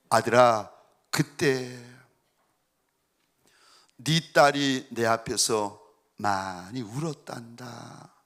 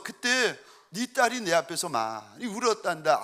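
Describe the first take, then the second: First: Low, slow, tender divine voice; voice of God. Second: Said in the usual way. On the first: Retold or imitated. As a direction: speak slowly as a gentle God. God's voice speaking to father. (아빠에게 말씀하시는 하나님, 낮고 느린 다정한 목소리)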